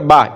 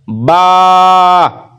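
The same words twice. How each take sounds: First: The vowel is cut short. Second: The vowel is drawn out long. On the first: The speaker calls it wrong. "इस तरह नहीं पढ़ना है" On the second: The speaker calls it right. "इस बा को हमें खींच कर पढ़ना है। ... इस तरह पढ़ना है।"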